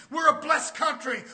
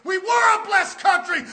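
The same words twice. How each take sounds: First: Said in the usual way. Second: "were" punched high and loud; loud preaching correction, leaning on "were"; stress on "were". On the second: Real, not acted. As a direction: hit "were" hard as a correction. Corrects the quote to past tense.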